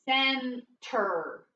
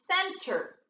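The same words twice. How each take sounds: First: "Center" in two slow separate syllables, cen... ter; sounded out. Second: Said in the usual way. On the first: Shown as a demonstration. Teacher decoding for pupils, "Center" syllable by syllable. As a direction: split "Center" with a pause between syllables. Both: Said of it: "What's the word?".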